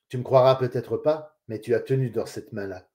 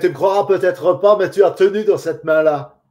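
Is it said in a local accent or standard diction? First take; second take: standard diction; local accent. First: It is spoken in neutral standard pronunciation. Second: It is spoken with a strong regional accent. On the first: "en respectant les règles de diction, avec les bons sons" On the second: "C'est un accent du coin d'ici"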